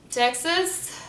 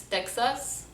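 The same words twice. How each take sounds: First: Texas pitched up in an American accent; high, rising American Texas. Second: Slow, softer Lebanese Texas; Lebanese accent. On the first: Announcing the state to viewers, American accent. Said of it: "How do we say states". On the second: Showing how Lebanon says it, Lebanese accent. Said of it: "it's Texas". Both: Shown as a demonstration.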